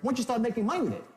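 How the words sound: It sounds certain, like a virtual guarantee.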